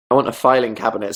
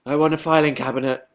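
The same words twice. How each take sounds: First: Said in the usual way. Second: A hint of a pleading kid; mock a child's earnest wish to mum; lightly voiced demanding child. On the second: Same words as a child's demand.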